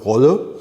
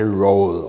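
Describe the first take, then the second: First: The name is said with a German pronunciation. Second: The name is said with an English pronunciation. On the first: "which is German pronunciation" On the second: "In English, people often say roll"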